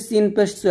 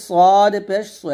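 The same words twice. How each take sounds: First: সিন পেশ সু with a thin, light s; thin seen. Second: সদ পেশ সু with a thick, full-mouthed s; heavy saad. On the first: Teacher contrasts two letters, সিন পেশ সু said thin. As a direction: keep the সু light and forward. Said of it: "এটা পাতলা". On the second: Teacher contrasts two letters, সদ পেশ সু said heavy. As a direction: thicken the সু, drawing out সদ. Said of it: "এটা হচ্ছে মোটা". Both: Shown as a demonstration.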